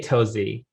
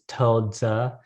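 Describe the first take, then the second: First: The name is said with English-style pronunciation. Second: The name is said with Mandarin pronunciation. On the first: "how people should probably say it" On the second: "the correct pronunciation in Mandarin"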